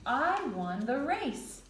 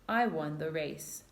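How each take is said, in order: First: It is said excitedly, with strong feeling. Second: It is said flatly, without strong feeling. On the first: The speaker feels strongly about winning. "I would be excited and I would have strong feeling about it" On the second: The speaker is simply stating a fact. "that's not very strong feeling"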